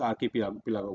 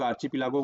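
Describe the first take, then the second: First: आर्किपिलागो with KI as in key; hard "k", not "ch", in आर्किपिलागो; "k" pronunciation. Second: आर्चिपिलागो with CHI as in chip; "ch" pronunciation. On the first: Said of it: "कोई लोग आर्किपिलागो बोलते हैं". (आर्किपिलागो को "क" से बोलें) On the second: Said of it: "कोई लोग आर्चिपिलागो बोलते हैं". (आर्चिपिलागो को "च" से बोलें) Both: Shown as a demonstration.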